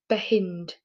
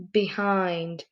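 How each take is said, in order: First: "behind" blended with a short i, like "behinned"; wrong short i. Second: "behind" with the long i vowel, as in "find". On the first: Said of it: "Let's try again". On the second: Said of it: "That's better". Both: Shown as a demonstration.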